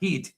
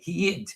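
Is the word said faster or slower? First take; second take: faster; slower. First: The word is said quickly with a short vowel. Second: The word is said slowly with a drawn-out vowel.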